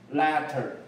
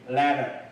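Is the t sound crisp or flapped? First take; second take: crisp; flapped. First: The t is a strong, crisp stop. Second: The t is a soft flap like d. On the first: "英式发音念letter" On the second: "美式发音为letter，这个t 呢？就有点像的的音"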